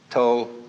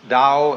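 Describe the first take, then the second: First: It is said with the Cantonese pronunciation. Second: It is said with the Mandarin pronunciation.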